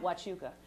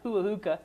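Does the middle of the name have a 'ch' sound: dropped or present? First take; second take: present; dropped. First: The middle 'ch' sound is clearly said. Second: The middle 'ch' sound is left out. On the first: The speaker calls it right. "He meant Huachuca" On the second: The speaker calls it wrong. "they couldn't pronounce any of the names of the cities"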